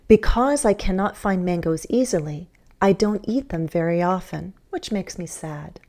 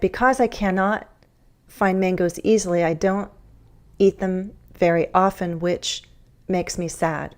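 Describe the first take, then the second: First: Pauses fall at the commas between phrases. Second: Pauses break the phrases at odd points. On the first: The speaker calls it right. "Here I'm following the commas" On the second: The speaker calls it wrong. "That kind of awkward breaking doesn't make the idea flow nicely"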